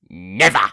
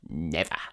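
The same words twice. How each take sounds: First: It is said intensely, with more force. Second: It is said subtly, with little force.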